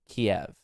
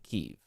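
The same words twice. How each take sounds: First: The name is said the Russian way, as Kiev. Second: The name is said the Ukrainian way, as Kyiv. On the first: "I think that's how Russians pronounce it" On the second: "and then Ukrainians pronouncing Kiev"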